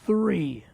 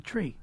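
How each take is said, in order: First: The word starts with a th sound. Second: The word starts with a plain t sound.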